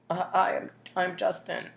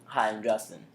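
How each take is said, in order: First: It sounds hesitant and nervous. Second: It sounds smiling and confident.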